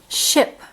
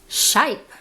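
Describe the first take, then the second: First: The vowel is a short i sound. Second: The vowel is a long i sound. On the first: The speaker calls it right. "it's a short I sound" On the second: The speaker calls it wrong. "It's not a long I"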